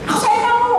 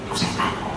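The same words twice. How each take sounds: First: The phrase is shouted loudly. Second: The phrase is whispered softly. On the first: The speaker calls it wrong. "ada nggak teriak-teriak sama pacarnya?" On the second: The speaker calls it right. "Yang ngomongnya lembut, bisik-bisik bahkan. ... Pelan"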